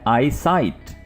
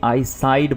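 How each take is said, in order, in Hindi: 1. शब्द का अंत 't' ध्वनि से होता है। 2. शब्द का अंत 'd' ध्वनि से होता है। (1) "तो आपने इसको बोलना है आई साइट" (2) "कुछ लोग समझ बैठते हैं कि ये आई साइड बोला जा रहा होता है"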